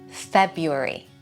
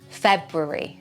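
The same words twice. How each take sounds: First: The first R sound is left out. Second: Both R sounds are pronounced clearly. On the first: "without that first R" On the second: "with two R's"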